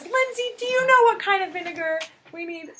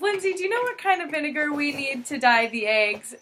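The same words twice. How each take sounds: First: Much higher mock-innocent mom voice; imitating mom. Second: Lighter mom imitation. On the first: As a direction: ask it sweetly fake, pitched up. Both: Mom asking Lindsay, retold.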